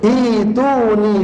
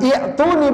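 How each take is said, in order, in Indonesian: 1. Tidak ada hentian glotal; vokal pertamanya panjang. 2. Ada hentian glotal setelah vokal pertama yang pendek. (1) "seakan-akan tidak ada hamzahnya. dibaca panjang" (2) "Bukan i'tuni, bukan"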